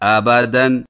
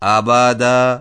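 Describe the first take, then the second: First: The word ends with an n sound. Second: The word ends with a long a sound. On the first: The reading continues without stopping on this word. "وہ دونوں پڑھے نہیں جائیں گے، جیسے آبادن" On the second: The reader stops on this word. "وقف کی صورت میں یوں پڑھیں گے"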